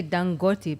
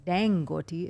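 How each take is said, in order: First: Dangote said dahn-GO-tee with open ah; African pronunciation. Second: Dangote said dan-GO-tee with flat a like cat; American pronunciation. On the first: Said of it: "I would say Dangote because it's an African name". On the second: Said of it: "sounds more American style". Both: Shown as a demonstration.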